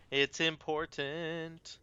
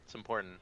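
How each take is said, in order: First: First quick, then drawn out slowly; slow right down to drive it home; slow emphatic repeat. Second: Said in the usual way. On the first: Shown as a demonstration. Streamer stressing the point to viewers, slowly.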